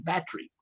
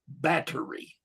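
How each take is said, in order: First: The middle t sounds are softened, not crisp. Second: The middle t sounds are pronounced crisply. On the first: "more like y'all without the list" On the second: "They make sure they put those two T's in there"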